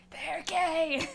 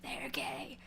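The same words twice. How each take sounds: First: Louder declaration. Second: Whispered secret, very soft; conspiratorial whisper. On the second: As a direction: lean in and whisper it. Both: Retold or imitated. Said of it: "I'm like".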